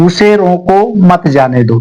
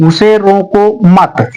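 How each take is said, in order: First: उसे रोको, then a short break before मत जाने दो; pause after रोको. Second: Slow उसे रोको मत as one phrase, break after मत; pause after मत. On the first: Teacher showing students where the first comma falls, pausing after रोको. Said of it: "यहाँ हमने कॉमा लगा दिया". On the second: Teacher showing the second sentence's comma, stopping after मत. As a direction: join मत to रोको and stop there. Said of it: "यहाँ मैंने कॉमा लगा दिया". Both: Shown as a demonstration.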